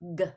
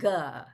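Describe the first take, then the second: First: The g sound is made with no vowel after. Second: A short uh vowel follows the g sound. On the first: The speaker calls it right. "It's ... g" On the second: The speaker calls it wrong. "it's not ... and guh"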